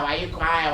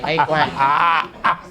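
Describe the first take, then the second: First: Said in the usual way. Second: Slow mocking drawl. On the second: [name] teasing the sulking friend with a slow, stretched-out drawl.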